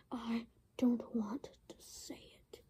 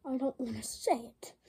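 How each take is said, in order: First: Soft breathy whisper; whispered refusal. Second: Said in the usual way. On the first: Acted. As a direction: mutter it sulkily. Repeated as a whisper.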